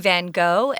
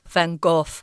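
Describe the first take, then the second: First: The name is said the American way. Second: The name is said the Dutch way.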